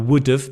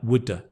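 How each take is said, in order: First: 'Have' is said in full as a separate word. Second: It is reduced to one linked word, 'woulda'.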